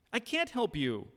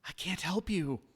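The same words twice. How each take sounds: First: Much higher, louder insistent no; raised, strained repeat; forceful refusal. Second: High, louder frightened refusal; a panicked, pitched-up no; terrified. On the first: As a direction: push the refusal out hard. Acted quarrel, repeated refusal. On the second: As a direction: blurt it out scared and higher. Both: Acted.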